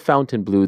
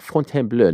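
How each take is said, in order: First: The name is said like English 'fountain blue'. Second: The name is said with a French-style pronunciation. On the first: The speaker calls it wrong. "not the Fountain Blue" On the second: The speaker calls it right. "I always have to say it like that"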